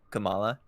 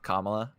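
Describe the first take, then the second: First: The name is said the game character's way. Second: The name is said like the vice president's name. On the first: The speaker calls it right. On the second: The speaker calls it wrong.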